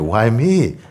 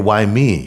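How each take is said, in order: First: It sounds amazed and grateful. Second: It sounds self-pitying and complaining.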